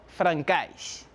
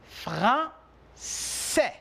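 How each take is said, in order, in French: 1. La consonne du milieu n'est pas un son s. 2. La consonne du milieu est un son s. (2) "On identifie le son F et le son S"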